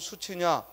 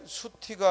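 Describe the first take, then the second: First: The second syllable is pronounced chi. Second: The second syllable is pronounced ti. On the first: The speaker calls it right. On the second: The speaker calls it wrong. "수티가 아니고"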